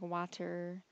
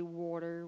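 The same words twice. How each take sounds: First: "water" drawn out, T softened to a d; slow "water" with no crisp T; slurred T. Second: "water" as "wawter", New Jersey style; New Jersey accent. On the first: Shown as a demonstration. Vlogger demonstrating her own accent, slurred T. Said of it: "We don't say the T". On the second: Retold or imitated. Michigander imitating New Jersey people, New Jersey accent. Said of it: "people in, like, New Jersey say".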